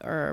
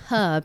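First: The word begins with a vowel, no h. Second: The word begins with a clear h sound. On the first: This is the American way of saying it. "Not herb, like we say" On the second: This is the British way of saying it. "And you say herb, right? Herb, yes"

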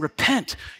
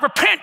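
First: It is said calmly and simply. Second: It is said harshly, like an accusation. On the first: It is a simple call to change direction. The speaker calls it right. "He's simply saying" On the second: The speaker is condemning the listener as a sinner. The speaker calls it wrong. "Not like, repent, you sinner! Not like that"

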